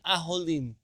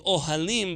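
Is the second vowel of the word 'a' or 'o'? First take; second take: o; a. First: The second vowel is an 'o' sound. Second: The second vowel is an 'a' sound. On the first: "the second one becomes O" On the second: "would not be ohalim"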